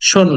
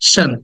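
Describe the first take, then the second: First: The ending has a long, rounded 'o' vowel. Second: The ending has a short, neutral vowel. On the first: The speaker calls it wrong. "না" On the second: The speaker calls it right. "এখানে স, দেন short আ"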